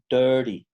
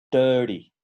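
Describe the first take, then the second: No difference in how they are said.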